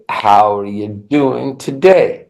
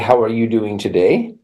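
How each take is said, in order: First: Only the key words are stressed. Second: Every syllable gets equal stress. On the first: The speaker calls it right. "We'd say" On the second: The speaker calls it wrong. "French is syllable time, but we would not say"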